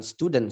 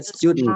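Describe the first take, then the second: First: Said in the usual way. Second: "student" as "styud-n", no vowel before n; held-back ending. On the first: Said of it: "bukan student sebenarnya". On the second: Shown as a demonstration. Teacher correcting students, "student" with held d before n. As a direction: stop the d in "student", straight into n. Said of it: "Bacanya student".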